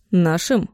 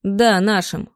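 First: A mild surprised rise on "Нашим?"; puzzled echo of "Нашим", rising at the end; surprised question. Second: "Да" pressed, defiant reply. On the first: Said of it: "Удивлённо поднимаю брови". (удивлённо переспросить «Нашим?» с подъёмом) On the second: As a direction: throw back "Да, нашим" as a challenge. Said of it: "с вызовом смотрит на меня отец". (с вызовом, нажим на «Да») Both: A narrator's reading.

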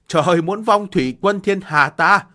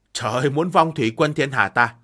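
First: Higher, louder crying wail; anguished wail. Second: Wailing. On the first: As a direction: wail it to the heavens. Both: Acted. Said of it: "gào khóc".

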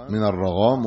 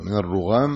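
First: "الرغام" said ar-raghaam, with a after ر; fatha on ra. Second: "الرغام" said ar-rughaam, with u after ر; damma on ra. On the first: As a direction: say "الرغام" with a short a on the ر. Repeats word with corrected vowel. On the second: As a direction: say "الرغام" with a short u on the ر. First vowel take, then corrected. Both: Shown as a demonstration.

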